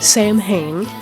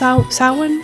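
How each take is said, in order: First: The word is read out as it is spelled. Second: The word is said differently from its spelling. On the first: "It looks like it's spelled Samhain" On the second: "But I heard it's pronounced Samhain?"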